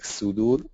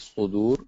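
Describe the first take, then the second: First: The first s sound is plain and light. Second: The first s sound is emphatic and heavy. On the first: The speaker calls it wrong. "it cannot be like sudur" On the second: The speaker calls it right. "it has to be sudur with the sad"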